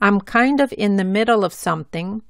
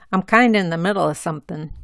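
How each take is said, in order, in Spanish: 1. Of y la g final se pronuncian completas. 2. Of se reduce a a y la g final se omite.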